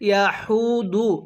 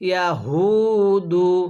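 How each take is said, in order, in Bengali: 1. h ধ্বনিটি বাতাস বের করে বলা হয়। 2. h ধ্বনিটি বাতাস বের না করে বলা হয়। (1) "এই হাটা উচ্চারণের সময় মুখ দিয়ে হালকা বাতাস বের করি, এরকমভাবে পড়লে পড়াটা সহি শুদ্ধ হবে না" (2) "কিভাবে পড়তে হবে"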